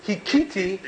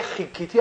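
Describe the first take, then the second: First: هیکیتی with a plain breathed h at the start; khet said as h. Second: خیکیتی with a throaty kh at the start; proper khet sound. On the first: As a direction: say هیکیتی with h in place of throaty kh. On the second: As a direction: say خیکیتی with a rasped Hebrew khet. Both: Shown as a demonstration. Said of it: "به خطار ه میگفت".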